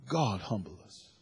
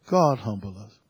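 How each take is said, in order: First: Softly spoken, prayerful plea; hushed prayer. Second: Said in the usual way. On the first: Real, not acted. Pastor praying over the congregation, hushed. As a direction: breathe it out as a quiet prayer. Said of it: "prayerful repetition". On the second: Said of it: "repeated plainly".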